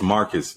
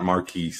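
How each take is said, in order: First: The name sounds like Marcus. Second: The name sounds like Marquise. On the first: The speaker calls it right. "It's Marcus, not Marquise" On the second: The speaker calls it wrong. "not Marquise"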